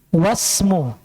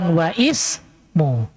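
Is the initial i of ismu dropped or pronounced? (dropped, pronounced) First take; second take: dropped; pronounced. First: The words are joined, with no i sound. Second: The i sound is pronounced between the words. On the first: The speaker calls it right. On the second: The speaker calls it wrong. "bukan wa ismu"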